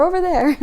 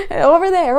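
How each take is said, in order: First: High, loud repeat, stress on over; playful call. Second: High, loud pointing call; playful call. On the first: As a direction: call it again, leaning on "over". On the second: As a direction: point and call out over there. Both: Pretend.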